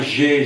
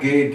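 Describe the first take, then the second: First: The g is soft, like a j sound. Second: The g is hard, like in gato. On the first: The speaker calls it wrong. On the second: The speaker calls it right. "É sempre"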